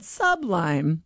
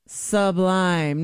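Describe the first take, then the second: First: Sublime drawn out as "SUB-lime"; slow, stressed "sub" in sublime; mocking demo of "SUB-lime"; wrong pronunciation. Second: Sublime drawn out as "suh-BLIME"; weak first syllable, stressed "blime" in sublime; slow, corrective "suh-BLIME"; correct pronunciation. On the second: Shown as a demonstration. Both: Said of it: "not sublime".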